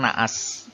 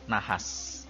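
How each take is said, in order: First: The h between the vowels is dropped. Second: The h between the vowels is pronounced. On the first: The speaker calls it wrong. "biasanya ini mengalami sedikit pelesapan. Jadi pengucapannya terkadang naas" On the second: The speaker calls it right. "yang benar dan yang baku adalah nahas"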